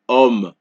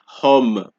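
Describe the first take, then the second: First: The initial H is silent. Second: The initial H is pronounced aloud. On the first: The speaker calls it right. "it's homme" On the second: The speaker calls it wrong. "I don't say hum"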